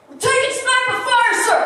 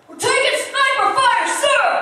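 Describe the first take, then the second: First: The word 'sir' is stressed lightly. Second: The word 'sir' is stressed heavily.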